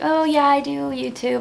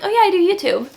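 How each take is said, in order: First: It sounds insecure and hesitant. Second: It sounds confident and proud.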